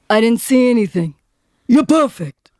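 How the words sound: It is said in a put-on character voice.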